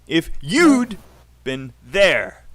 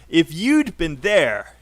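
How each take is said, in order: First: It is said at a normal pace. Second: It is said a little faster.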